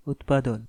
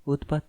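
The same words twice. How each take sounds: First: উৎপাদন spelled out clearly with a falling close; the right word উৎপাদন, stressing the final দন; correct word. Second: উৎপাত said plainly as the mistaken word, ending in t; the wrong version উৎপাত, clear and even. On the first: Kotha correcting Agni, firmly giving the right word উৎপাদন. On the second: Kotha correcting Agni's mix-up, quoting the wrong word উৎপাত. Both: Shown as a demonstration. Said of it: "উৎপাত না, উৎপাদন".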